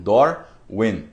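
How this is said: It is said with English sounds, like Dor-win. "Como eles pronunciam Darwin"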